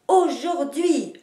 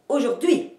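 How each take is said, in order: First: The stress is on the first and last syllables. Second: The stress is on the last syllable. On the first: "en marquant les deux places de l'accentuation" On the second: "vous montez l'énergie jusqu'à la fin et vous accentuez la dernière syllabe"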